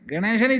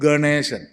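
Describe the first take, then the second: First: The first syllable is said like ge. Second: The first syllable is said like ga. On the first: The speaker calls it wrong. "ഗണേശൻ ഇല്ല" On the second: The speaker calls it right. "ഗ ഗ ഗേ അല്ല"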